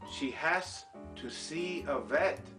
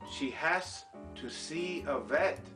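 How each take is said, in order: First: 'Has to' is said fully, each sound clear. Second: 'Has to' is said fully, each sound clear.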